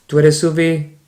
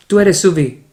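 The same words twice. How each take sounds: First: Rising question tune; questioning rise; question intonation. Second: Falling statement tune, higher and louder; falling tune on Suvi; statement intonation. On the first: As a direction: ask it, lifting at the end. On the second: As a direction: state it firmly, falling at the end. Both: Shown as a demonstration. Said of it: "we just change the intonation".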